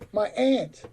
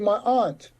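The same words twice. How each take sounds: First: Aunt is said as white Americans tend to. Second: Aunt is said as Black Americans tend to.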